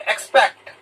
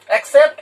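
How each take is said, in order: First: एक्सपेक्ट said level and plain, sounding eks-pekt; contrast drill, expect. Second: एक्सेप्ट said higher with a rising end, sounding ek-sept; contrast drill, accept. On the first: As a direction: set एक्सपेक्ट as eks-pekt apart from accept. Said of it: "किसको पढ़ते हैं एक्सपेक्ट". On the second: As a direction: mark एक्सेप्ट as ek-sept against expect, rising. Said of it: "किसको पढ़ते हैं एक्सेप्ट". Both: Shown as a demonstration. Teacher to pupils, contrasting two similar English words.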